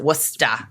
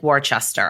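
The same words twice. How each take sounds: First: It is said the local Massachusetts way. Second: It is said the way it is spelled. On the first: This is how locals actually say it. "we pronounce it Worcester if you're from Massachusetts" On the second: This is how the spelling reads. "It looks like Worcester"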